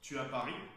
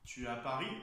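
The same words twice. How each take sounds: First: The voice falls at the end. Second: The voice rises at the end. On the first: It is a plain statement. "phrase affirmative" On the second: It is a yes-no question. "on va changer l'intonation à la fin. ... comme ceci"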